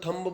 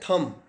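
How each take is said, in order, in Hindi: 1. अंत में b ध्वनि बोली जाती है। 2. यह शब्द m पर खत्म होता है, b साइलेंट है। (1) "थम्ब बोलते हैं" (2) "इसका सही उच्चारण है थम"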